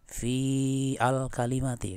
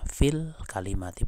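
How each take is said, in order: First: The hamza of al is pronounced separately. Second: The words are linked with the hamza dropped. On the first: The speaker calls it wrong. "bukan gini. ... kan bukan" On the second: The speaker calls it right. "Ini kita bacanya fil kalimati"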